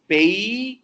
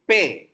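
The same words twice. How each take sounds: First: "pay" with a clear ei glide, higher and louder; correct diphthong pay. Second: "pay" with a pure, flat e vowel, no glide; the Indian pure-vowel version of "pay"; Telugu-style pay. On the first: Teacher corrects students, gliding "pay" properly. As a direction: stretch "pay" from e to i. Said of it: "It's not pay". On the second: Teacher shows how Telugu speakers say "pay". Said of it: "We say pay". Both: Shown as a demonstration.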